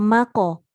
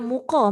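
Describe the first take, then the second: First: The first vowel sounds like 'a'. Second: The first vowel sounds like 'u'. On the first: The speaker calls it right. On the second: The speaker calls it wrong. "bukan muko"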